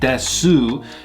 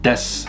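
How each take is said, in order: First: The final u vowel is clearly pronounced. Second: The final u vowel is dropped entirely. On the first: The speaker calls it wrong. "it's not like you're saying desu" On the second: The speaker calls it right. "it's just more like des"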